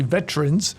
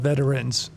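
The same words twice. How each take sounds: First: The word is said with two syllables. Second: The word is said with three syllables. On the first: It is the usual everyday form. "It's usually veterans, you know. So when it's plural, plural it's usually two syllables" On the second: It sounds formal or ceremonial. "if you want to be more formal or ceremonial"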